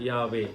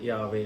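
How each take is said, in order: No difference in how they are said.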